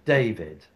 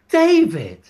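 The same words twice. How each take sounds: First: It is said with mild exaggeration. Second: It is said with more exaggeration.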